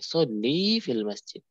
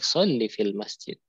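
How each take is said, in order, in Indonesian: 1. Vokal akhir sholli dibaca panjang. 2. Vokal akhir sholli dibaca pendek. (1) "kalau merintahkan ke cewek ya sholli panjang" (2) "Kalau sekarang pendek"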